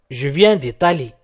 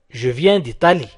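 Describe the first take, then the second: No difference in how they are said.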